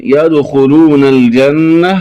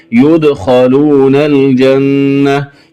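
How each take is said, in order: First: Said in the usual way. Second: يدخلون said "yudkhaloona", slowly; u on ya, a on kha in يدخلون; passive vowels. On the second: Shown as a demonstration. Teacher showing the variant, slow يدخلون as "yudkhaloona". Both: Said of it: "بضم الياء وفتح الخاء".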